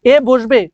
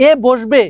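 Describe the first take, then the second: No difference in how they are said.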